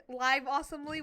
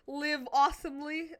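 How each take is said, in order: First: "live" said with a long i, to rhyme with five. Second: "live" said with a short i, to rhyme with give. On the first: Offering the other channel name, "live" with a long i. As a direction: say "live" as in a live show. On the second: Plugging his friend's channel, "live" with a short i. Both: Shown as a demonstration. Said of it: "whatever you wanna call it".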